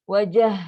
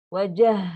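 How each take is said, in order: No difference in how they are said.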